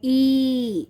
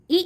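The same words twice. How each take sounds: First: ई held long and steady; long sound. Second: ई as one quick, brief vowel; short sound. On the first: Teacher showing children the long sound, drawn-out ई. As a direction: stretch ई right out. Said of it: "इसे हमें खींच के बोलना होता है". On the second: Teacher contrasting the two sounds for children, short ई. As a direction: cut ई off short. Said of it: "short sound". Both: Shown as a demonstration.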